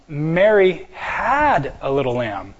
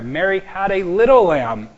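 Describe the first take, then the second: First: The word "had" carries the main stress. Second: The word "little" carries the main stress. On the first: She owned one in the past but not now. "She doesn't have one now. She used to" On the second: The lamb was small, not big. "not a big lamb"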